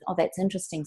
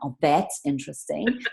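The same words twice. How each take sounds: First: It is said in a calm, sincere tone. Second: It is said in a sarcastic, mocking tone. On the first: The other view is calmly acknowledged. The speaker calls it right. "it's got to have discipline around it with" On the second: The listener is being mocked. The speaker calls it wrong. "you can't say it with sarcasm um, or derogatory, like"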